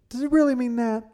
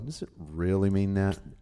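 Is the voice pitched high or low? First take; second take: high; low. First: It is said in a higher voice. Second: It is said in a low voice.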